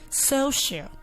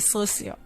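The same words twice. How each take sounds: First: The middle consonant is a sh sound. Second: The middle consonant is an s sound. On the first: The speaker calls it right. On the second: The speaker calls it wrong.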